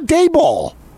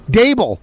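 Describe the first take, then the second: First: The name does not rhyme with table. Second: The name sounds like it rhymes with table. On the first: The speaker calls it wrong. "It's not Daboll" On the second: The speaker calls it right. "like table"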